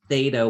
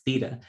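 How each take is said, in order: First: It is said with an American accent. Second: It is said with a non-American accent. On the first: "I say it in an American way" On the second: "Rachel says theta"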